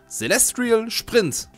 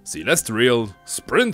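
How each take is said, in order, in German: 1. 'Sprint' wird mit deutschem Akzent ausgesprochen. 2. 'Sprint' wird mit englischem Akzent ausgesprochen. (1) "Sprint spreche ich viel zu deutsch aus" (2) "Okay, jetzt habe ich's"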